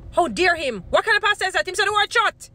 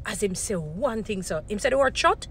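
First: Hammed-up scandalised voice, higher and louder, "shut." snapped out; mock outrage. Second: Rising mock indignation that lands hard on "shut."; mock outrage. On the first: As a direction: play the outraged churchgoer over the top. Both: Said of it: "this is how we're gonna be watching the pastors".

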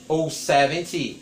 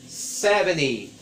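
First: "seventy" with a clear T sound; crisp careful "seventy", T pronounced; full seventy. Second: "seventy" said slowly with the T dropped, like "seveny"; american seventy. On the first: Teacher gives the T-version "seventy" to students. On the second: Teacher models American "seventy" for students. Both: Shown as a demonstration. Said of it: "uma pronúncia americana".

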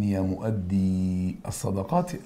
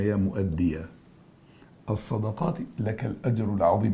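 First: مؤدي with long drawn-out "eee", mu'addee; plural vocative reading. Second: مؤدي ends "-iya", with a short fatha; singular vocative reading. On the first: Teacher shows students the plural, مؤدي slowed to mu'addee. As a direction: stretch the end of مؤدي before الصدقات, no final "a". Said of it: "ده عندي جمع". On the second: Teacher addresses one person as example, مؤدي ending in "-iya". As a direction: say مؤدي as mu'addiya, running into الصدقات. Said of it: "بكلم واحد بس". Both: Shown as a demonstration.

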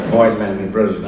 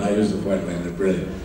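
First: Savoring the name. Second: Said in the usual way. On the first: Real, not acted. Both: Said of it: "what a great name to throw around".

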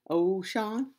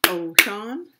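First: Said in the usual way. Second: Ocean in two loud beats, rising at the end; syllable by syllable. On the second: Shown as a demonstration. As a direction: punch out O-cean, lifting the last syllable. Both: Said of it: "They have two syllable".

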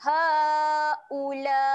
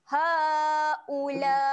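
First: "Haula" with a short u and a long held la; chanted "Haula"; recited long la. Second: "Haula" again with the la drawn out; short u, then hold the la; chanted "Haula"; recited long la. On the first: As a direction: keep the u short, stretch the la. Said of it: "jangan panjangkan bunyi u". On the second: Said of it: "La tu baru panjang". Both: Shown as a demonstration.

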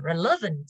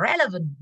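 First: "relevant" with the beat moved to "le"; stress on second syllable. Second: "relevant" with the beat on "re"; stress on first syllable. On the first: Teacher showing the other accepted stress, "relevant" stressed on "le". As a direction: push the middle "le" of "relevant". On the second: Teacher showing one of two accepted stresses, "relevant" stressed on "re". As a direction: hit the opening "re" of "relevant". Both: Shown as a demonstration. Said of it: "relevant nó sẽ là có hai cách đánh trọng âm".

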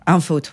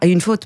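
First: "un faute" with the wrong article un, as a learner's slip; "un faute", mock-repeating the foreigner's mistake; mistaken masculine article. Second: "une faute" with the article une said clearly; "une faute", une stressed a little as the correction; correct feminine article. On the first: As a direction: say "un faute" as the error, un instead of une. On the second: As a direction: say "une faute" the right way, une before faute. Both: Shown as a demonstration.

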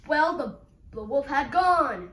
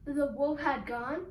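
First: Loud, falling statement; loud announcement. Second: Rising question on "gone". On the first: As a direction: proclaim it firmly at full voice. Announcing wolf gone, then questioned. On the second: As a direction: ask it back, lifting "gone" at the end. Red asks back what was announced. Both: Acted.

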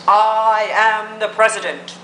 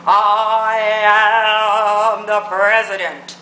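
First: Slow, drawn-out mock president; slow self-important president send-up; mock presidential. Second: Hammed-up, booming slow presidential send-up; mock presidential, exaggerated. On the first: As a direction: quote the president slowly, stretching the words. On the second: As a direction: stretch "I am" out grandly, mocking the president. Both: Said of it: "saw what the president said".

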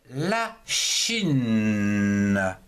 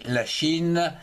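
First: Chine held very long; drawn-out word. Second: Said in the usual way. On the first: Shown as a demonstration. Teacher introducing la Chine as an example, drawn out. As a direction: stretch Chine slowly, lingering right through to the n.

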